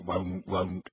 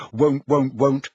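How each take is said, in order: First: Low croaked refusal; house elf croak. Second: Said in the usual way. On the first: A narrator's reading. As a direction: grumble it like a sulky elf. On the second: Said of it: "continued croaks of".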